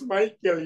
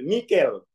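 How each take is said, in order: First: The name is said with an English pronunciation. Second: The name is said with a local pronunciation. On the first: This is the version the school demands. The speaker calls it right. "Harus Michael" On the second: The reader gets laughed at and scores zero. The speaker calls it wrong. "ditertawain nol"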